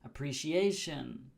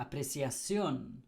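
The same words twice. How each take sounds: First: "appreciation" as uh-pree-shee-AY-shun; English pronunciation. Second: "apreciación" as ah-preh-see-ah-SYON; Spanish pronunciation. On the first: Teacher compares spellings, English pronunciation of "appreciation". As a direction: stress AY in "appreciation", English style. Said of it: "The same with P". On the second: Teacher compares spellings, Spanish pronunciation of "apreciación". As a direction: stress final SYON in "apreciación". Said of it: "becomes one P". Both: Shown as a demonstration.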